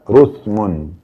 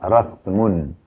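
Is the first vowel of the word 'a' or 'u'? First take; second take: u; a. First: The first vowel is a rounded 'u' sound. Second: The first vowel is an open 'a' sound. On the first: "atau mendammakannya" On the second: "Bisa dibaca rathmun. ... yang memfathahkan huruf ra"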